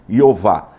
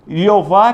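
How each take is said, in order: First: "Iová", original Hebrew sound, stress on VAH; Hebrew name pronunciation. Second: The Portuguese form, zh sound first; Portuguese pronunciation. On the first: Teacher showing students the Hebrew name, ee-o-VAH. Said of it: "que é o Iová Tessabaote". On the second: Teacher giving students the Portuguese form of the name. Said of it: "na nossa língua nós falamos Jeová". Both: Shown as a demonstration.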